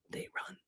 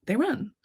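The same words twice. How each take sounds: First: Whisper. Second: Said in the usual way. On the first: Acted. Quiet aside about fleeing cats.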